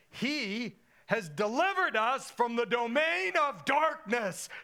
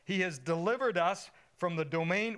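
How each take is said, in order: First: It is read with strong, heartfelt feeling. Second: It is read plainly, without much feeling.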